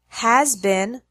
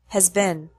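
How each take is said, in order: First: The words are said fully and strongly. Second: The words are said softer, faster and reduced.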